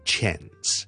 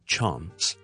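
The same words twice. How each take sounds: First: It is said in an American English accent. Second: It is said in a British English accent. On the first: "而美式英文是类似chance" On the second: "英式英文。 Chance 是R 音"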